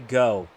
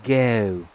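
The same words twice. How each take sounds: First: It is said without a British accent. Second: It is said with a British accent.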